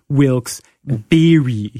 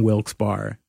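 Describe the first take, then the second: First: Wilkes Barre with "Barre" as a drawn-out "beery"; correcting pronunciation. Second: Wilkes Barre with "Barre" as bar; mistaken pronunciation. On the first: Retold or imitated. Local correcting the host, Barre stretched as "bee-ree". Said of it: "Someone went". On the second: Shown as a demonstration. Host admitting the version that got them yelled at, Barre as "bar". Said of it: "yelled at for saying Wilkes Barre".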